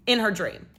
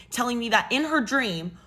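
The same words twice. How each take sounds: First: In hit hard as a pointed repeat; stress on In. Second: Said in the usual way. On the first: Shown as a demonstration. Narrator stressing to viewers it was only a dream. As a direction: lean on In her dream, deadpan. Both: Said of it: "Not in real life".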